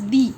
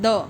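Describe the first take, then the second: First: The word ends in a long 'ee' vowel. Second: The word ends in a short 'uh' vowel. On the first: This is how it was said in Old English. "Old English में that was pronounced as दी" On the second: This is how it is said today. "If I से T H E वी pronounce as द"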